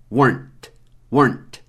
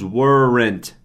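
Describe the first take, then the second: First: "weren't" curto, uârnt, sem vogal antes do NT; weren't numa sílaba só. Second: "weren't" esticado em uér-rent; weren't errado, duas sílabas. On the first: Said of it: "como uma sílaba". ("weren't" seco, de um golpe só) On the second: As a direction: arraste "weren't" com uma vogal a mais antes do NT. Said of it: "não pronunciamos weren't". ("weren't" lento, partido em duas sílabas) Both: Shown as a demonstration.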